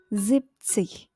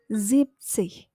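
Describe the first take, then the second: The two takes are said the same way.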